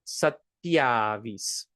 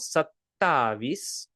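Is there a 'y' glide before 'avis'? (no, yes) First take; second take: yes; no. First: It is said with a 'tya' glide before 'avis'. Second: It is said with a plain 'ta' before 'avis'. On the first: This is how people usually say it. "when we pronounce it, very often it's going to become satyavis" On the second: This is how the word is written. "It is spelled sattavis"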